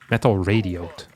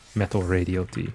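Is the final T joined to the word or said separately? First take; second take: joined; separately. First: The final T is joined onto the last syllable. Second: The final T is said as a separate letter. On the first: The speaker calls it right. "Maybe it's pronounced like that" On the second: The speaker calls it wrong. "I can't believe I mispronounced that first"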